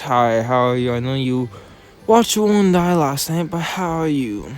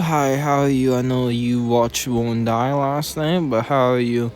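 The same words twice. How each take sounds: First: It sounds eager to hear a juicy secret. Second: It sounds afraid of hearing the answer.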